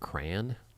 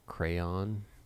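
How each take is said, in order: First: One syllable, with the vowel rhyming with man. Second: Two syllables, the second rhyming with dawn. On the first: "With one syllable rhymes with man" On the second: "Second syllable rhymes with dawn"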